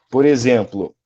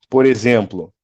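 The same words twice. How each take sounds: No difference in how they are said.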